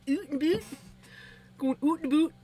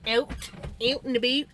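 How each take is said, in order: First: High mock Canadian "oot and boot". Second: "out and about" with wide, exaggerated vowels, higher; contrasting out vowel. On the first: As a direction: overdo the Canadian OO vowel, pitched up. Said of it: "Canadian, oot and boot". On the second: Streamer comparing accents, wide-vowelled "out and about". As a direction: overdo the open vowel in "out and about". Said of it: "I say more oat or out, uh, than out". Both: Shown as a demonstration.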